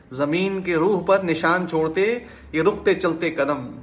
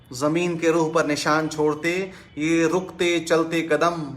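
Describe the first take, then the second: No difference in how they are said.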